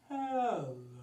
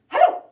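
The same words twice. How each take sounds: First: It is said very slowly. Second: It is said very fast.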